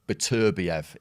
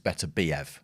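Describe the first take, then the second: First: The stress is on the third-to-last syllable. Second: The stress is on the second-to-last syllable. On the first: This is how English speakers naturally say it. "we'll put the stress on the third from end. So Beterbiev is what we would say" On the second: This is how it is said in Russia. "it's the last but one, hence Beterbiev"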